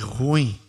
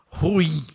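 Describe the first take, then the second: First: The ending does not rhyme with Caim. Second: The ending rhymes with Caim. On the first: It is the everyday form everyone understands. The speaker calls it wrong. "Falei ruim porque todo mundo entenda" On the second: It is the correct pronunciation. The speaker calls it right. "o certo da pronúncia é ruim. É só lembrar do irmão de Abel, que é Caim"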